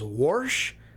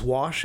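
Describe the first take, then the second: First: The word is said with an r sound. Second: The word is said without an r sound. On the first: "who pronounce wash as warsh" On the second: "who pronounce wash as warsh"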